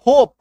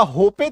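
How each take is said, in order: First: "होप" in one loud syllable, silent e; correct pronunciation. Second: "होपे" in two syllables, final e voiced; wrong pronunciation. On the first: Teacher giving students the right reading of hope, loud "होप". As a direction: punch out "होप", ending on the p. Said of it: "होप कहते हैं". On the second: Teacher showing students what is not said, mispronounced "होपे". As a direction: add an -ay ending: "होपे". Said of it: "इसका होपे तो नहीं बोलते". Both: Shown as a demonstration.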